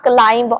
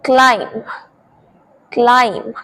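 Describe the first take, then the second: First: "climb" said as clime-b; wrong, sounded b. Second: "climb" said as CLIME; careful separate "climb", rhyming with time; silent b. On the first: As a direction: add a b after the m in "climb". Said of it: "not climb or numb". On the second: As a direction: close "climb" on the m, no b. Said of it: "बी letter is silent". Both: Shown as a demonstration.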